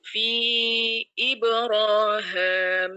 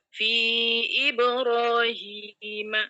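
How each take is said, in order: First: The last syllable is said as 'ham'. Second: The last syllable is said as 'him'. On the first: This follows one reciter's transmission. "memfathahkan ha dan menambah mengganti ya menjadi alif. Him menjadi ham" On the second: This follows another reciter's usual transmission. "bacaan Ibnu Zakwan dengan seperti biasa"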